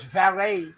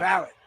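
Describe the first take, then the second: First: The word ends with an 'ay' sound. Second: The word ends with an 'it' sound. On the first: It names the person who parks cars. "Because valet, they park cars" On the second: It names the attendant who sits on horses. "valid. Yeah. Because the old timers told me"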